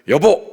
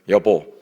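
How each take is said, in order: First: It is said angrily and very sharply. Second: It is said firmly and sternly.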